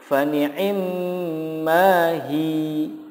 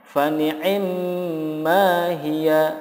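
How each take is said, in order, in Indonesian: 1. Frasa ini berakhir dengan hi yang dipanjangkan. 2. Frasa ini berakhir dengan suku kata hi-ya.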